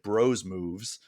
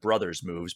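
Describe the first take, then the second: First: The first word is said as short 'bros'. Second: The first word is said as full 'brothers'. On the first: "but they pronounce it Bros moves" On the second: "which I would have pronounced that Brothers moves"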